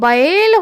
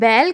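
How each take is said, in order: First: The first vowel glides from a toward i. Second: The first vowel is one steady sound. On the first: This is the pure, correct pronunciation. The speaker calls it right. "लेकिन वास्तव में बैल होता है" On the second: This is how people commonly say it. The speaker calls it wrong. "इसके बाद हम बैल कहते हैं"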